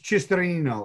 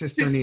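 First: The name is said with Italian pronunciation. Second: The name is said with American pronunciation. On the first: "if you're Italian" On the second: "If you're American"

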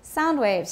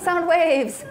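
First: The stress falls on the word sound. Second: The stress falls on the word waves. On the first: It is a compound noun: waves that carry sound. The speaker calls it right. "是声波" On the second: Sounds that are waving. The speaker calls it wrong. "不对哦"

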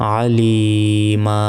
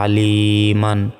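First: The word ends in a long a without n. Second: The word ends in -an with a final n. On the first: "এখানে একটি জবর উচ্চারণ হবে এবং 1 সেকেন্ড টান হবে" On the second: "মিম আলিফ 2 জবর মান"

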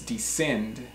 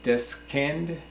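First: The middle C is silent. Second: The middle C is pronounced as a K sound. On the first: The speaker calls it right. "it's descend" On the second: The speaker calls it wrong. "It's not descend"

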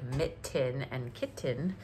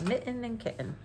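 First: The T sounds are crisp and strongly pronounced. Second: The T sounds are soft and lightly pronounced. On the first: "I'm not like super pronunciating them like"

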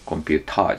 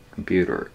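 First: The t is a hard, clear t. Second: The t is a quick flap like r. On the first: The speaker calls it wrong. "アメリカ英語だとコンピューターじゃなくて" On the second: The speaker calls it right. "フラップT"

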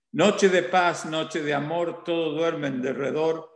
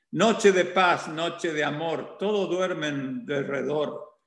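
Both takes have the same delivery.

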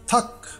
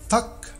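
No difference in how they are said.

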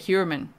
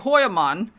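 First: The name is pronounced with American English sounds. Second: The name is pronounced with German sounds. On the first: "in America they say Heuermann, so I'm saying it like that" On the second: "my ancestry is German, so I also want to say Heuermann"

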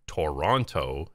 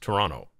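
First: The name is said the way outsiders say it. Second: The name is said the way residents say it. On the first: The speaker does not live there. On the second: The speaker lives there.

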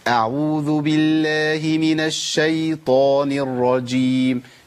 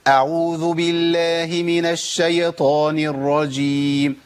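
First: The y in shaytan stays without a vowel. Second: The y in shaytan is given a vowel. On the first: The speaker calls it right. "امال اقولها ازاي؟" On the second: The speaker calls it wrong. "ده خطا"

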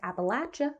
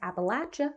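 First: The word is said the way locals say it. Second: The word is said the way locals say it.

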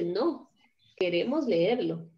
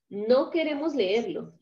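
First: There is a short pause after 'no'. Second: The words run together with no pause after 'no'. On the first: No; we do want to read it. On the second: We do not want to read it.

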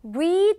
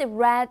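First: It uses the present-form vowel of read. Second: It uses the past-form vowel of read. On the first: It means to read now. "현재형이거나 기본형일 때는 read라고 읽지만요" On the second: It means read in the past. "발음이 변합니다"

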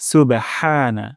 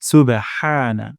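The two takes are said the same way.

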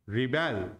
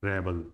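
First: The stress is on the second syllable. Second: The stress is on the first syllable. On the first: It is used as a verb. "यहां पर stage कहां लगा है, second पर" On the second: It is used as a noun. "First syllable पर इस पर आ, वो स्ट्रेस आ रहा है"

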